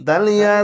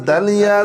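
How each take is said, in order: Both takes have the same delivery.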